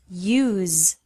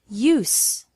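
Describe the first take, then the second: First: The word ends with a buzzing Z sound. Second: The word ends with a hissing S sound. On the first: It is a verb. "with a Z sound" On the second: It is a noun. "with an S sound"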